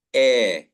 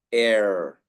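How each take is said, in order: First: Loud, long "air" as "eh" with no R; British pronunciation. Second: "air" with a strong final R; American pronunciation. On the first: Teacher modelling British, "air" as a loud R-less "eh". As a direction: drop the R in "air", holding the vowel. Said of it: "British pronunciation". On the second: Teacher modelling American, "air" with the R sounded. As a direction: curl into a full R on "air". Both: Shown as a demonstration.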